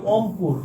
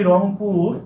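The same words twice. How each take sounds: First: "অমপুর" starting straight on the vowel, no r; dropped initial r. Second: Said in the usual way. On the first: Shown as a demonstration. Teacher shows the colloquial form, "অমপুর" without its first r. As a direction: leave the r off the front, "অমপুর". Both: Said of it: "রংপুরকে আমরা বলি অমপুর".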